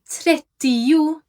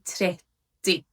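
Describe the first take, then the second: First: Every syllable is pronounced fully, as spelled. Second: The word is said in a shortened, reduced form. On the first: The speaker calls it wrong. "we wouldn't really say trettio" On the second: The speaker calls it right. "we would just say trettio"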